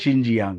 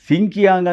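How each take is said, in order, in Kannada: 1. ಇದು sh ನಿಂದ ಆರಂಭವಾಗುತ್ತದೆ ಮತ್ತು j ಧ್ವನಿ ಇದೆ. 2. ಇದು s ನಿಂದ ಆರಂಭವಾಗುತ್ತದೆ ಮತ್ತು k ಧ್ವನಿ ಇದೆ. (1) "ಅದರ ಸರಿಯಾದ ಒಂದು ಉಚ್ಚಾರಣೆ" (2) "ಸಿಂಕಿಯಾಂಗ್ ಅಂತ ಅಂದ್ಕೊಂಡ್ರೆ ತಪ್ಪಾಗುತ್ತೆ"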